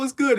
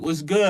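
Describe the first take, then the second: First: The greeting sounds friendly and welcoming. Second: The greeting sounds cold and threatening. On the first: A casual, welcoming hello. "like any other regular person" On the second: The speaker is looking to start trouble. "That sound like a, I'm trying to press you was good"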